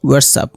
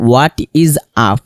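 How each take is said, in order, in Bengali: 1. 'is' শব্দটি 'what'-এর সাথে মিশে সংকুচিত হয়ে যায়। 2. 'is' শব্দটি আলাদা একটি শব্দ হিসেবে বলা হয়। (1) "স্পোকেনের ক্ষেত্রে আমরা বলবো" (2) "হোয়াট ইজ আপ না বলে"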